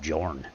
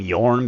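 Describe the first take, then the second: First: The name begins with a J sound. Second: The name begins with a Y sound. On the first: The speaker calls it right. "they actually call him Jorn" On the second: The speaker calls it wrong. "I've been calling him Yorn"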